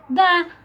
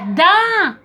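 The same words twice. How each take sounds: First: The word is said lower and without force. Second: The word is said higher and with force. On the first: The speaker calls it right. "é da. É mais baixo" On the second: The speaker calls it wrong. "Não é da"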